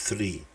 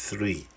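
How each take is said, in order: The two takes are said the same way.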